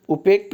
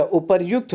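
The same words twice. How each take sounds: First: उपेक्त as u-pekt; wrong form उपेक्त. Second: उपर्युक्त as u-par-yukt; correct form उपर्युक्त. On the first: Teacher rejecting a common mistake, उपेक्त as u-pekt. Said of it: "उपेक्त नहीं होता". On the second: Teacher correcting the class, उपर्युक्त as u-par-yukt. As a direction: sound the r and yu in उपर्युक्त. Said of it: "उपर्युक्त होता है". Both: Shown as a demonstration.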